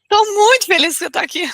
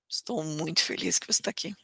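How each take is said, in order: First: The voice sounds mocking and sarcastic. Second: The voice sounds flat and indifferent. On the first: The speaker means the opposite. "Mostro sarcasmo" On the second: The speaker does not really care. "Eu mostro indiferença"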